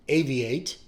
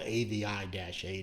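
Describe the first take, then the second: First: No separate letter I is spoken before eight. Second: The letter I is spoken separately before eight. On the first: The speaker calls it right. "it's A V eight" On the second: The speaker calls it wrong. "I was pronouncing it wrong"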